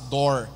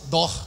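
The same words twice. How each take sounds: First: It is said with a strong, American-like r. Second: It is said in a Bahian Portuguese accent. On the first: "quando vai falar inglês é fácil" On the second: "Aí o baiano vai falar inglês?"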